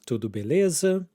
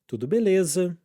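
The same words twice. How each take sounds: First: It is said with a question intonation. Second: It is said with a statement intonation. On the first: It asks how someone is. "there are some questions here" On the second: It answers that everything is fine. "this time with the intonation of a statement"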